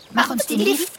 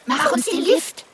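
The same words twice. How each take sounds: First: Higher little mouse call. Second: Very high, squeaky mouse call. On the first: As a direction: ask like a tiny eager mouse. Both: Acted. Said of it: "riefen die Mäuse".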